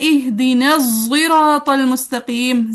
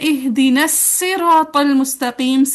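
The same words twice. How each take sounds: First: Sirat begins with a heavy, emphatic z sound. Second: Sirat begins with a plain, light s sound. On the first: "जाय मुफख्खम हैवी जा के साथ" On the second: "सीन के साथ"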